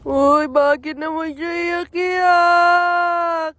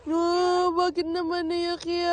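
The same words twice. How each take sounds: First: Slow, loud singsong coo; loud drawn-out cooing. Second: Sustained singsong coo. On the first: Asking the crying little one why, loud drawn-out coo. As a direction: stretch it out loudly to comfort a crier. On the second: Asking the crying little one why, gentler drawn-out coo. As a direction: draw out the last syllable soothingly. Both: Real, not acted.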